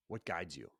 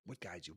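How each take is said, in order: First: Said in the usual way. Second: The same question again, much softer; softer repeat. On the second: Shown as a demonstration. Host repeats the question to listeners much softer. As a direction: let it sink in, quietly.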